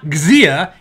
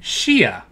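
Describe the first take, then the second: First: The word does not begin with sh. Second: The word begins with an sh sound. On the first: The speaker calls it wrong. "it's not Xia" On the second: The speaker calls it right. "it's a sh sound"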